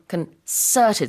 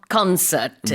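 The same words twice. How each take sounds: First: The stress is on the second syllable. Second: The stress is on the first syllable. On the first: The speaker calls it right. "the stress is on concerted, so the second syllable" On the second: The speaker calls it wrong. "not concerted, like a concert"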